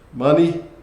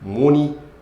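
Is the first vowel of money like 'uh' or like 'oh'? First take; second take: uh; oh. First: The first vowel is an 'uh' sound. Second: The first vowel is an 'oh' sound.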